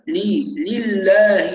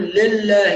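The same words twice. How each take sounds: First: "لي، لله" slow, with a clear "lii, lil-laahi"; full kasra. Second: "لله" said "lel-laah", the i sagging to e; slack kasra. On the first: Teacher drills the vowel, slow لله with a full i on the lam. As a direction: stretch a pure i in "لي" and "لله". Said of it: "نركز على كسرة اللام". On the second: Teacher shows what not to say, لله with an e for i. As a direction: loosen the first vowel of "لله" to "le". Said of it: "لا نقول". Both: Shown as a demonstration.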